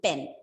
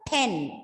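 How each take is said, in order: First: The p is said without a puff of air. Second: The p is said with a puff of air. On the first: The speaker calls it wrong. "not simply pen" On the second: The speaker calls it right. "it's a pen"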